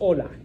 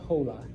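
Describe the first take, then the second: First: The word begins directly with the vowel sound. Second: The word begins with an audible H sound. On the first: The speaker calls it right. "it's just hola. You pretend it's not there" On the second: The speaker calls it wrong. "So so it's not hola"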